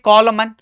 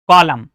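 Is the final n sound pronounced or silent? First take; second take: pronounced; silent. First: The final n sound is pronounced. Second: The final n sound is silent. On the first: The speaker calls it wrong. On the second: The speaker calls it right.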